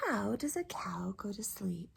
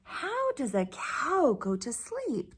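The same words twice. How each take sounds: First: Whispered storybook question, much softer; whispering to sleepy children. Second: Said in the usual way. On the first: Shown as a demonstration. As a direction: hush it like a bedtime secret.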